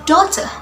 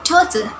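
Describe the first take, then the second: First: It is spoken with a British accent. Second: The same.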